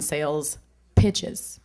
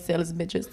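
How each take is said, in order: First: The second word begins with a P sound. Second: The second word begins with a B sound.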